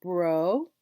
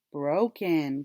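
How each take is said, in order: First: BROKEN as two parts, BRO rising, then KEN; split into syllables. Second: Said in the usual way. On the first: Shown as a demonstration. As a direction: break BROKEN apart with a clear gap. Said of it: "let's bring 'em together". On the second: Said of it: "bring 'em together and our word is".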